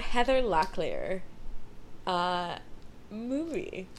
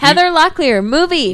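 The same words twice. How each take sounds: First: The voice is quiet and distant. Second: The voice is loud, almost yelled. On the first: "You're too far away from the mic" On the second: "you don't have to yell it"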